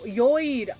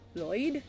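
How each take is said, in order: First: It starts with a Y sound instead of L. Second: It starts with a plain English L sound.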